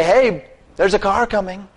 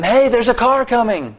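First: Raised-pitch heads-up at normal volume; spoken warning. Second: Mock warning yell. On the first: Retold or imitated. Preacher showing the least one could say to the man, spoken warning. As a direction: say it as a higher, unshouted warning. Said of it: "Or at least say". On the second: Preacher acting out yelling at a man in the road, mock warning yell. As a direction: call out a warning on a much higher pitch. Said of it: "Instead of yelling at him".

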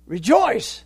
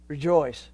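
First: Rejoice said higher and louder; stress on Rejoice. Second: Said in the usual way. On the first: Shown as a demonstration. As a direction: repeat Rejoice, punching it harder. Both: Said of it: "I'm repeating myself".

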